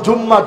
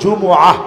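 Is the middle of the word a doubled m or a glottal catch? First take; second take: doubled m; glottal catch. First: The word has a long doubled m sound. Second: The word has a vowel, a catch, then -ah. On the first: The speaker calls it wrong. "আমরা বলি জুম্মা, ... এটা ভুল কথা" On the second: The speaker calls it right. "বলতে হবে জুমআহ"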